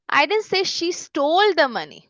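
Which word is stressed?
stole. The stress falls on the word stole. She borrowed it rather than stealing it. "उसने बोरो किए है, steel नहीं किए"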